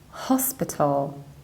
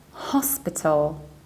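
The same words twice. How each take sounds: Both takes have the same delivery.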